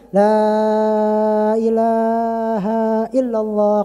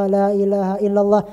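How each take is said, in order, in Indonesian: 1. Vokalnya dipanjangkan. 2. Frasa la ilaha illallah diucapkan dengan panjang biasa. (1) "dibaca dipanjangin" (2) "Biasanya kan ada orang baca"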